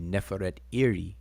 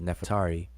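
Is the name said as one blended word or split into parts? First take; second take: split; blended. First: The name is split into separate parts. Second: The name is said as one blended word. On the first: This shows the parts the name is made of. "if you break the the name down, it would be" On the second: This is the usual modern way of saying it. "that's really a conventional way we say it"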